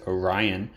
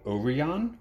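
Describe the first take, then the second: First: It is said with an English pronunciation. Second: It is said with a Japanese pronunciation.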